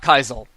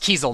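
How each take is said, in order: First: The first vowel sounds like 'eye'. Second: The first vowel sounds like 'ee'. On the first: The speaker calls it wrong. "not Kaisel, like I originally thought it was" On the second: The speaker calls it right. "it's actually pronounced Kiesel"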